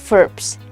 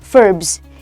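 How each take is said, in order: First: The word ends with a hissing s sound. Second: The word ends with a buzzing z sound. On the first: The speaker calls it wrong. "instead of verbs" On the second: The speaker calls it right. "actually should be verbs"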